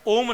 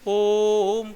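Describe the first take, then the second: First: The vowel is held for a normal short time. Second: The vowel is drawn out for a long time. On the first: The speaker calls it wrong. "ओम नहीं बोलेंगे" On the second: The speaker calls it right. "प्लुत स्वर का उच्चारण तीन गुना समय में होता है"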